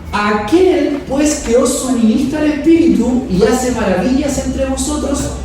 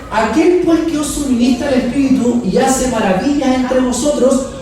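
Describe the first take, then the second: Both takes have the same delivery.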